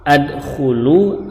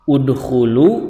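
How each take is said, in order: First: The word begins with the vowel a. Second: The word begins with the vowel u.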